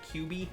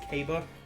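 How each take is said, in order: First: The name is said as 'kyoo-bee'. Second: The name is said as 'kah-bah'. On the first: The speaker calls it wrong. "but I said Q B" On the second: The speaker calls it right. "the name of the city was Kaba"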